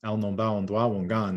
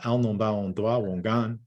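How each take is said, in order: First: "Al non ba on doa wongan" with its stress on doa and a musical tune; Abenaki rise and fall. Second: "Al non ba on doa wongan" sung out with a rising and falling melody; Abenaki rise and fall. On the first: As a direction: repeat "Al non ba on doa wongan", rising and falling. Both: Shown as a demonstration. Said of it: "there we really hear the rise and fall".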